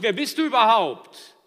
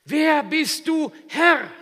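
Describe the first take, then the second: First: Loud, higher, cocky demand; defiant challenge. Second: Loud, much higher, slow shout; awed shout. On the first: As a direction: throw the question back defiantly. (trotzig herausfordernd) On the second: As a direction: cry out in humbled awe. (ehrfürchtiger Aufschrei) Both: Acted. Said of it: "Er fragt nicht".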